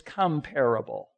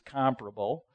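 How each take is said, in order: First: The stress is on the second syllable. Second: The stress is on the first syllable. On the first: The speaker calls it wrong. "which is bad pronunciation" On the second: The speaker calls it right. "because the word is comparable"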